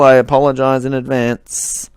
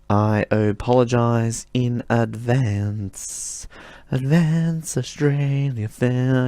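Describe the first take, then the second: First: Said in the usual way. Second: Slow, stretched-out mock voice, a bit softer; goofing around with a dragged-out voice; silly drawn-out voice. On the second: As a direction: drag each word out like a goofy put-on. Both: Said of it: "I don't know why I'm speaking like this".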